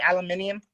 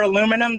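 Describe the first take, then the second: First: "aluminium" said the British way, al-yoo-MIN-ium; British pronunciation. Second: Said in the usual way. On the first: Shown as a demonstration. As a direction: say "aluminium" with an extra i before the um. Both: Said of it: "they say aluminium".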